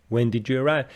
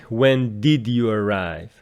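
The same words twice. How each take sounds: First: 'Did' and 'you' blend together with a j sound. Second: 'Did' and 'you' are said as separate words. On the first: The speaker calls it right. "These two words are kind of mixed together, giving you the sound j in between" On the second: The speaker calls it wrong. "she doesn't say"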